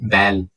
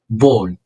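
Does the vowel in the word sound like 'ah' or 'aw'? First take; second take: ah; aw. First: The vowel is an open, flat 'ah' sound. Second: The vowel is a full, rounded 'aw' sound. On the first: The speaker calls it wrong. "مش تكتب بال ولا تال" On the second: The speaker calls it right. "لاو مفخمه"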